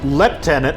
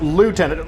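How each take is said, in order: First: It is said the British way, like 'leftenant'. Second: It is said the American way, like 'lootenant'. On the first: "A lot of these guys have English accents" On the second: "No, it's lieutenant"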